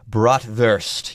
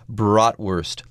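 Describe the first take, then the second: First: The W is said as a V sound. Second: The W is said as an English W sound. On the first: The speaker calls it right. "Let's be more properly German and say bratwurst. Yes, make that W a V sound" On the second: The speaker calls it wrong. "Here I'm being an American. I just said bratwurst"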